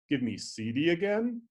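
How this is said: The pitch rises high and loud at the end. It is a question. "a question with a low pitch accent and a high boundary sequence"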